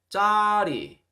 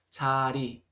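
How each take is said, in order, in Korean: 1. 첫 자음은 경음이고 힘을 줍니다. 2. 첫 자음은 평음이고 힘을 뺍니다. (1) "짜리 이렇게 발음 나지 않도록 주의하셨으면 좋겠습니다"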